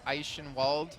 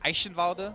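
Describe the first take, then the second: First: The name ends without a final vowel sound. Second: The name ends with a pronounced final vowel. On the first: This is how it is said in America. "So if you're in America, it's like Eichenwald" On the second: This is how it is said in Germany. "If you're in Germany, it's uh, Eichenwalde, because the E always has like a hard sound"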